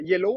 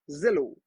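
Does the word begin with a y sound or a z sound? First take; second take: y sound; z sound. First: The word begins with a y sound. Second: The word begins with a z sound. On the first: "au lieu de dire euh, yellow" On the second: "on dirait zello"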